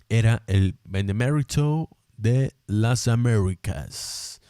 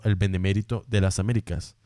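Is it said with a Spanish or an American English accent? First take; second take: American English; Spanish. First: It is said in an American gringo accent. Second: It is said in a native Spanish accent.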